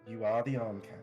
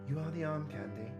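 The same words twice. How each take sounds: First: It is said without the character's feminine voice. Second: It is said in a put-on feminine character voice.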